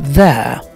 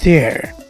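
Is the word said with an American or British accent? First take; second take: British; American. First: It is said with a British accent. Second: It is said with an American accent. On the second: "But in American English"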